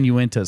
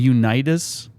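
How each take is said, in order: First: The name starts with a yoo-in sound. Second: The name starts with a yoo-nih sound. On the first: The speaker calls it right. "has it always been Uintas?" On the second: The speaker calls it wrong. "we just said it wrong the whole time"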